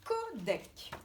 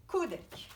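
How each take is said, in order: First: Codec slowly split as co-dec; syllable by syllable. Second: Said in the usual way. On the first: Shown as a demonstration. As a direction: separate the two syllables of codec. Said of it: "Combien de syllabes?". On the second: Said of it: "quand on le dit".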